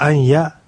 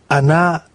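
First: The particle is pronounced with the y sound. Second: The particle is pronounced without the y sound. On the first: "というように" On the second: "y が落ちた形、やーではなくて、あーという形で聞こえます"

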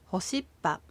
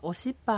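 First: The word begins with an h sound. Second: The word begins with a vowel sound. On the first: "何々が帰るという意味の複数形ほしっぱ" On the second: "ほしっぱをおしっぱに変えて発音してみましょう"

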